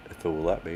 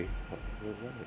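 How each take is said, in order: First: Said in the usual way. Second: Breathy whisper under his breath; whispered aside. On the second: Real, not acted. Host whispers at his stalling screen share. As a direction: mutter it to yourself, barely audible.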